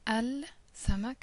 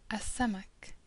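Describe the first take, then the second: First: The L sound is pronounced before samak. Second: The L is silent and the s is doubled. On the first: The speaker calls it wrong. "instead of saying L samak as we've done up until now" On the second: The speaker calls it right. "we say a samak"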